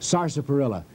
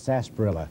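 First: Every syllable of the word is pronounced. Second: Some sounds of the word are dropped. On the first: "that's the correct pronunciation" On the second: "Down in the South, they call it sarsaparilla because it's too hard to get all those letters in"

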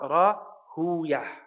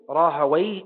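First: The name ends with a '-yah' sound. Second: The name ends with a '-way' sound. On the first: The speaker calls it wrong. "and not Rahuyah" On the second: The speaker calls it right. "his name is Ishaq ibn Rahaway"

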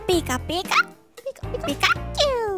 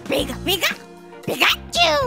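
First: A cute voice sounds happy and excited. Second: A cute voice sounds angry and irritated. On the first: The character is happy. "처음에는 신난 피카츄고요" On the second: The character is mad. "화난 피카츄 보여드릴게요"

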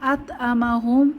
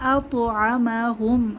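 First: The t at the end is cut short without echo. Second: The t at the end bounces with an echo. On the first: The speaker calls it wrong. "এখানে আত আমা হুম এরকম হবে না" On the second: The speaker calls it right. "এখানে আমরা প্রতিধ্বনি করে পড়ব।"

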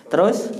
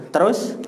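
Both takes have the same delivery.

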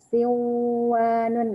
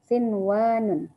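First: The n merges into the following w sound. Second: The n is pronounced clearly before the w. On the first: The speaker calls it wrong. "Jadi bacanya enggak siwanun enggak gitu" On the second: The speaker calls it right. "tapi bacanya tetap seperti izhar"

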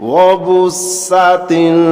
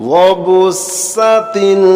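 The two takes are said the same way.

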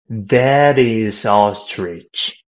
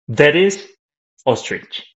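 First: The words flow together without any break between them. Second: The words are separated with a break between them. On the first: The speaker calls it right. "But if you connect the sound" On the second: The speaker calls it wrong. "So you're saying it like this in English"

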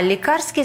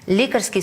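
First: The stress is on the last syllable. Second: The stress is on the first syllable. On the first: It relates to medicines. "А лікарський стосується ліків" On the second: It relates to a doctor and their work. "Лікарський стосується лікаря та його діяльності"

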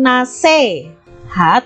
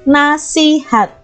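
First: The middle syllable has the vowel e. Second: The middle syllable has the vowel i. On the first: This is the informal, non-standard form. The speaker calls it wrong. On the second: This is the standard form. The speaker calls it right. "Jadi pakai i ya"

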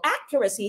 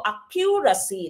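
First: The stress is on the first syllable. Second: The stress is on a later syllable. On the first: The speaker calls it right. "yung stress po ay nasa first syllable" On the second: The speaker calls it wrong. "hindi po accuracy"

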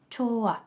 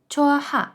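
First: The h sound is dropped between the vowels. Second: The h sound is pronounced between the vowels. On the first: The speaker calls it right. "Тобто вимова буде чола" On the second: The speaker calls it wrong. "Написано чоха"

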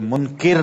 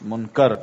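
First: The vowel after the 'k' sound is 'i'. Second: The vowel after the 'k' sound is 'a'. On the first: The speaker calls it wrong. "ये मुनकिर नकीर नहीं है" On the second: The speaker calls it right. "मुनकर काफ के ऊपर जबर है"

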